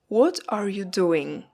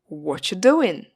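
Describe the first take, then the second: First: Every word is pronounced, including 'are'. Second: 'Are' is dropped and the words run together. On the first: "seems too long" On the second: "what are you becomes one word"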